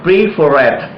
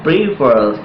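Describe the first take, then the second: First: "preferred" with an extra final syllable, pree-fer-red; wrong pronunciation. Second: "preferred" in two syllables, pree-ferd; correct pronunciation. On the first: Teacher warning students of a wrong ending, mispronounced. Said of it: "you cannot pronounce preferred". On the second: Teacher showing students the right ending, correctly pronounced. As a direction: close "preferred" straight onto the final d, no extra syllable. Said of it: "You have to pronounce preferred". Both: Shown as a demonstration.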